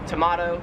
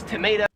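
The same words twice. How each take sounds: First: It is said with an Australian pronunciation. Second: It is said with an American pronunciation.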